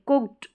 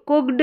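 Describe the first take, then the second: First: The word ends with a t sound. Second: The word ends with a d sound. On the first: The speaker calls it right. "ट का sound आएगा" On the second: The speaker calls it wrong. "कुक्ड नहीं बोलते"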